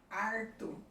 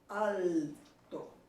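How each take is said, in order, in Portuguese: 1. O L é substituído por um som de R. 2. O L é um L pleno, com a língua tocando o palato. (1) "O L é transformado em R" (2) "fortemente pronunciado"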